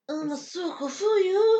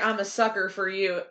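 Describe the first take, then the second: First: Sucker ends with an open 'ah' sound. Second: Sucker ends with a clear r sound. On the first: "It's suka" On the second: "they don't say, I'm a sucker for you"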